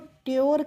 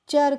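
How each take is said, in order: First: It is pronounced like 'tyoor', with a 't' sound. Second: It is pronounced like 'cher', with a 'ch' sound. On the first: The speaker calls it wrong. "इसको ट्योर करके नहीं पढ़ते हैं" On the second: The speaker calls it right. "चर करके पढ़ते हैं"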